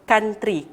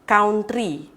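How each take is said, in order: First: The word is said like 'kantri'. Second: The word is not said like 'kantri'. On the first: The speaker calls it right. "Kita akan sebut dia sebagai country. K A N R T R I" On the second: The speaker calls it wrong. "Dia tak sebut sebagai country"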